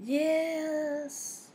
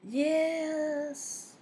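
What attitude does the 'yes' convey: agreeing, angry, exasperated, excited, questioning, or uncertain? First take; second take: uncertain; uncertain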